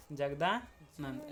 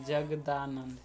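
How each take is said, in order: First: Jagdanand drawn out slowly, each syllable apart. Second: Said in the usual way. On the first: Shown as a demonstration. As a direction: spell out Jagdanand slowly for the class. (Jagdanand को धीरे-धीरे, एक-एक अक्षर अलग करके बोलो) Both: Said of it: "अत है जगदानंद".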